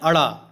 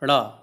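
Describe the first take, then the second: First: It starts with an added vowel before the nasal. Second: It starts directly with the nasal consonant. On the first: The speaker calls it wrong. "जबकि क्या कहते हैं" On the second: The speaker calls it right. "सही उच्चारण इसका यही है"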